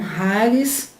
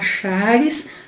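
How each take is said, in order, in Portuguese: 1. A palavra começa com um som parecido com h, áspero. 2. A palavra começa com um som de ch simples. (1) "a fala é em tom de R com H" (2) "Muita gente fala charis"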